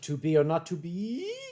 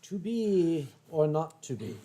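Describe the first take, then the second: First: The voice goes up at the end. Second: The voice does not rise at the end.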